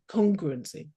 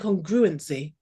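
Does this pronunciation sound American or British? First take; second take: British; American. First: It is said with a British pronunciation. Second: It is said with an American pronunciation. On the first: This is how the speaker says it. "I speak like the World Service" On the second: This is how the other person says it. "sounds really American"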